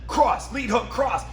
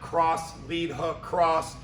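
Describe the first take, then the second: First: It is said lively, with varied pitch. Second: It is said flat, without pitch variation. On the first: The speaker calls it right. "That creates energy in your voice" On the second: The speaker calls it wrong. "That there's no voice inflection"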